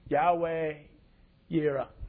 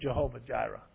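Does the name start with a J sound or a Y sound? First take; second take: Y sound; J sound. First: The name begins with a Y sound. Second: The name begins with a J sound.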